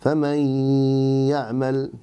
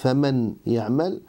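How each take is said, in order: First: The n merges into the y with nasalization. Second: The n is pronounced clearly before the y. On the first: The speaker calls it right. "nous allons occulter noun, mais en lui laissant... al-ghunna" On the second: The speaker calls it wrong. "au lieu de dire faman ya'mal"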